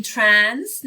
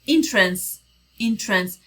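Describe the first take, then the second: First: "entrance" with a full vowel in the second syllable; mispronounced on purpose; wrong pronunciation. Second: "entrance" with the short schwa between the two; teacher's correct take. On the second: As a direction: give the right reduced "entrance". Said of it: "یه چیزی بین این دوتاست". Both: Shown as a demonstration.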